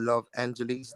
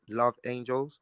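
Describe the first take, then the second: First: The last word sounds like the city 'Angeles'. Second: The last word sounds like 'angels', two syllables. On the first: "depending on how you want to pronounce it" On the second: "depending on how you want to pronounce it"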